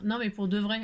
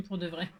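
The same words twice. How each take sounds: First: Said in the usual way. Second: Repeated through a real little laugh; giggling at her own joke. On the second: Real, not acted. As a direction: laugh while saying it again.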